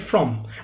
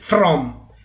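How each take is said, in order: First: The word is unstressed with a weak vowel. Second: The word is stressed with a full vowel. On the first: The speaker calls it right. "we simply say from" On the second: The speaker calls it wrong. "we don't say from"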